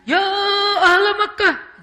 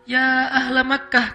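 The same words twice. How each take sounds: First: It is shouted loudly in a dramatic, exaggerated tone. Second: It is called out in a measured, moderate voice.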